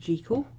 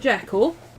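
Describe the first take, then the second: First: The name is said the Scottish way. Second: The name is said the non-Scottish way.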